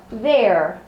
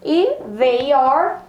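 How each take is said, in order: First: They're said like their, one syllable; short contracted their; contraction. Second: They are drawn out slowly as two words; slow careful they are; full form. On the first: Teacher shows the contraction their. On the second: Teacher shows they are before contracting. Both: Shown as a demonstration. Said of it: "como que fica na contração".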